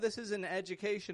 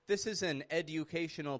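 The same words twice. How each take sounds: First: The D and U blend into a J sound. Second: The D and U are pronounced as separate sounds. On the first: The speaker calls it right. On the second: The speaker calls it wrong.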